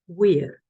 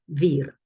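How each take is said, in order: First: The word begins with a w sound. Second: The word begins with a v sound. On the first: This is the classical Latin pronunciation. "classical Latin pronunciation, probably you would say something like wir" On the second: This is not the classical Latin pronunciation. "instead of vir"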